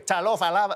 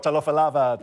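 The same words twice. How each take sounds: First: The greeting is said in a cheeky way. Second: The greeting is said in a plain way. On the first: This is how the greeting comes across to native listeners. "To them, I'd sound like I was going, oi, talofa lava, like... I sound fresh to Samoans" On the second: This is how the speaker means the greeting. "if I was like, oh, talofa lava"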